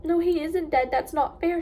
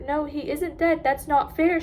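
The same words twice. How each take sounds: First: Louder and higher, tearful protest; crying. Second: Crying. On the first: Pip crying to her dad over the dead dog, louder. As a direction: cry it out through real tears. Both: A narrator's reading. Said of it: "she cried".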